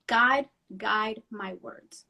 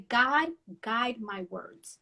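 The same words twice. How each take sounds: First: Slow, hushed prayer; a whispered plea to God; prayerful. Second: Prayerful. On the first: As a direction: pray each word slowly. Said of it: "I always say". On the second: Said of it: "And I say". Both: Retold or imitated.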